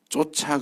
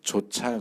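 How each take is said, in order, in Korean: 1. 이 단어는 된소리로 시작합니다. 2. 이 단어는 평음으로 시작합니다. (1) "쫓아 그러면 내쫓는다 그런 뜻이에요" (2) "쫓아 그래야 따라간다 그런 뜻이죠"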